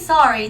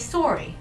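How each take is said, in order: First: It is said in the speaker's own accent. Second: It is said in a slightly Canadian accent. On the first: "we say sorry" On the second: "they say sorry"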